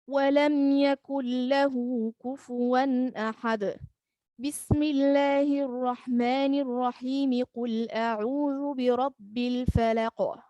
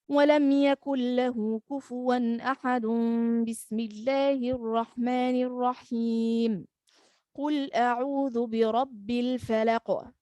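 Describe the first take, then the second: First: A pause comes before the Basmala, none after. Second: A pause comes after the Basmala, none before. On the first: The Basmala belongs with the next surah. "stops and takes a breath, then reading the Basmala with the beginning of the next surah" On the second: The Basmala seems to end the previous surah. "join the end of the surah with the Basmala, then he stops to take a breath"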